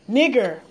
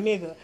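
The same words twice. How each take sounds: First: Nigger, firm hard r on the end; Nigger, ending in a full r sound. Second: Nigga said soft and low, open "uh" ending with no r; nigga, relaxed vowel at the end, no r sound. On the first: The slur he refuses, said with its hard r. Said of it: "I don't like that word". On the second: The word among friends, said soft with no r. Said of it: "we use nigga amongst each other". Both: Shown as a demonstration.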